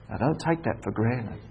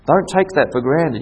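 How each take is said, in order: First: Soft warning. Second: Said in the usual way. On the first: Acted. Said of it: "repeated with emphasis".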